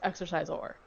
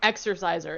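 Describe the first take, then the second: First: The last syllable is a full 'sor' sound. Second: The last syllable is a plain, weak 'ser'. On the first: "I'm saying it like that because they spell it like that" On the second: "It's not e- e- exerciser"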